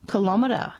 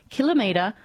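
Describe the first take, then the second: First: Kilometre said as kuh-LOM-uh-ter; kil-OM-eter. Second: Kilometre said as KILL-uh-mee-ter; KILL-o-metre. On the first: Host reading listener's pronunciation complaint, kilometre as kuh-LOM-uh-ter. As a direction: stress the second syllable of kilometre. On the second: Host reading listener's pronunciation complaint, kilometre as KILL-uh-mee-ter. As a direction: stress the first syllable of kilometre, long "mee". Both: Shown as a demonstration. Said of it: "Not sure why people pronounce kilometre".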